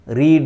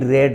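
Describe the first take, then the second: First: The vowel is long, like in reed. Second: The vowel is short, like in red.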